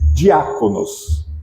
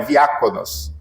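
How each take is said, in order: First: The word begins with a D sound. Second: The word begins with a V sound.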